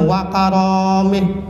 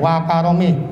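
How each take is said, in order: First: The vowel after the r is drawn out long. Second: The vowel after the r is kept short. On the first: The speaker calls it wrong. "jangan wa karamih, salah tuh" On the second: The speaker calls it right. "bacanya enteng"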